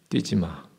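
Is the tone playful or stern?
stern. It is said with a straight face, sternly. The warning is meant seriously. The speaker calls it right. "정색하고 말했어요"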